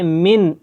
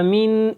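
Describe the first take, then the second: First: The final n is pronounced clearly and distinctly. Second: The final n is hidden in a nasal hum. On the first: The speaker calls it right. "मिन बिल्कुल वाज़ेह पढ़ रहा हूँ" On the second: The speaker calls it wrong. "ऐसे नहीं पढ़ रहा, मिन इख्फा जो कि छुपा के पढ़ते हैं"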